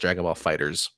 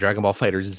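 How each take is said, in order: First: The name ends like the plain word 'fighters'. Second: The name ends with a separate letter 'zee'. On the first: The speaker calls it right. "It's just Dragon Ball Fighters" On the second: The speaker calls it wrong. "It's not Dragon Ball Fighter Z"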